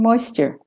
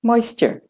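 First: It is spoken in an American accent. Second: It is spoken in an American accent.

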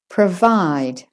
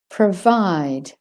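First: The first vowel is reduced to schwa. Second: The same.

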